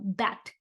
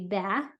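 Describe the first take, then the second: First: The final t sound is clearly pronounced. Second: The final t sound is left off. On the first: The speaker calls it right. "You should really hear that third letter" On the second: The speaker calls it wrong. "bat shouldn't be ba"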